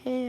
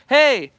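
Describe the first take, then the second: First: The voice is soft and light, from the head. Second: The voice is full, projected from the chest. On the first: It greets someone close by. "not just head and like soft" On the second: It calls to someone far away. "You're just using a lot more of your fullness... your chest"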